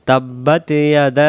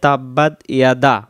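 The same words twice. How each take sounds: First: তাব্বাত ইয়াদা with the a stretched three counts; long alif. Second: তাব্বাত ইয়াদা with the alif cut short; wrong reading of তাব্বাত ইয়াদা without the long a; alif dropped. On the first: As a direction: draw out the a after তাব্বাত. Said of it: "এখানে আবার তিন আলিফ টান". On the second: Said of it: "এই আলিফ অক্ষরটা এখানে বাদ যাবে". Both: Shown as a demonstration.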